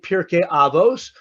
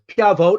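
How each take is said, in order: First: It is said in Ashkenazi pronunciation, ending in s. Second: It is said in non-Ashkenazi pronunciation, ending in t.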